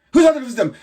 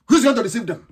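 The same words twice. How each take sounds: First: Who's pushed out louder the second time; louder insistent repeat. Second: Said in the usual way. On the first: Real, not acted. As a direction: hammer the question harder. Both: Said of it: "repeated louder".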